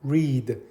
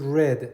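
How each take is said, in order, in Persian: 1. مصوت بلند است، مثل reed. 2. مصوت کوتاه است، مثل red. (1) "این دو نقطه یعنی کشیده" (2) "تلفظ شکل گذشتهش اما هست read"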